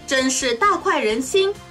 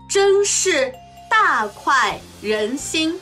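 First: It is spoken at natural fast speed. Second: It is spoken slowly and deliberately. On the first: "中国語ネイティブスピード1 回" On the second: "中国語ゆっくりスピード1 回"

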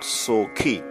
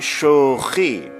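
First: The word begins with an 's' sound. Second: The word begins with a 'sh' sound. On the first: The speaker calls it wrong. "and not sokhi" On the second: The speaker calls it right. "We say shokhi"

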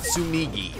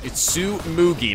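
First: The middle vowel sounds like 'i'. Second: The middle vowel sounds like 'u'. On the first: The speaker calls it wrong. "not Tsumigi" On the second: The speaker calls it right. "it's Tsumugi"

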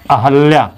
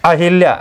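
First: The vowel after the h is 'a'. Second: The vowel after the h is 'i'. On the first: "शुद्ध रूप में होता है अहल्या" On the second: "Ramayan में अहिल्या है ना"

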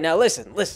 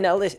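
First: It is said in a put-on accent. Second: It is said in the speaker's normal voice.

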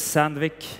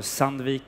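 First: The name is said the English way. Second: The name is said the Swedish way.

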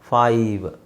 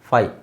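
First: The word ends with a clear v sound. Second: The word ends without a final v sound. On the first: The speaker calls it right. "ವ್ sound ಬರಬೇಕು" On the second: The speaker calls it wrong. "ತುಂಬ ಜನ ಇದನ್ನು ಫೈ ಅಂತ ಹೇಳ್ತಾರೆ"

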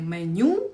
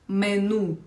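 First: The word ends with a 'yoo' sound. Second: The word ends with a plain 'oo' sound. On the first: The speaker calls it wrong. "Тому це слово не меню" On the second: The speaker calls it right. "а меню"

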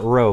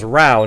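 First: The vowel rhymes with go. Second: The vowel rhymes with cow. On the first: The speaker calls it wrong. "not row" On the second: The speaker calls it right. "so it's row"

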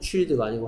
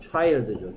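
First: The vowel sounds like 'ee'. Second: The vowel sounds like 'eye'. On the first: The speaker calls it wrong. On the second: The speaker calls it right. "여기에 아이는 아이 소리 납니다"

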